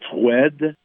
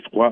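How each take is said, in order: First: The word ends in a clear d sound. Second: The word ends in a wa vowel, no consonant. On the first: This is how the word was said long ago. "se prononçait froide dans le temps" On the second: This is how the word is said in France. "et froid en France"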